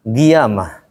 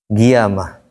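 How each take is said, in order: No difference in how they are said.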